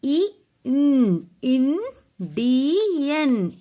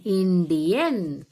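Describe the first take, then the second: First: Indian sounded out slowly, stretched; careful spelling-out of Indian; slow demo. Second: Said in the usual way. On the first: Shown as a demonstration. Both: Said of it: "See children, once again".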